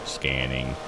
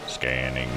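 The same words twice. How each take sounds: The two takes are said the same way.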